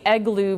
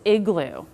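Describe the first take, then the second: First: The first vowel sounds like 'eh'. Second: The first vowel sounds like 'ih'. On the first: The speaker calls it wrong. "Kids may say" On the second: The speaker calls it right.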